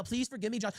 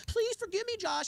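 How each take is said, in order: First: Soft, whiny begging voice; mock groveling plea. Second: Much higher, whining mock plea; high pleading whine. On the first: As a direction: beg quietly, imitating a grovel. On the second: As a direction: whimper it like a pathetic beggar. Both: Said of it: "begging email".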